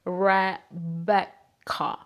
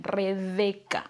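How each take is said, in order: First: Slow Rebecca with an untrilled English R; English pronunciation. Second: Slow Rebeca with a strong Spanish R; Spanish pronunciation. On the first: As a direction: Rebecca broken up slowly in English. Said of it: "But in English, they pronounce it". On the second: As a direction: Rebeca drawn out in a very Spanish accent. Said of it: "así como lo escuchan". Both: Shown as a demonstration.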